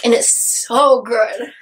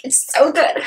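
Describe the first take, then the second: First: Slow, savoured so good; gushing slowly over the book; drawn-out gush. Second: Said in the usual way. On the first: Real, not acted. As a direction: stretch it out, dreamy.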